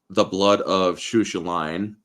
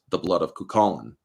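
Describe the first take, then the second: First: The name is read out letter by letter. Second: The name gets its traditional Irish pronunciation. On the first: The speaker calls it wrong. "if you try pronouncing it" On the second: The speaker calls it right. "it's actually"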